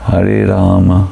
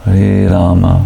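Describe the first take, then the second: First: The final vowel of Rama is short, barely audible. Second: The same.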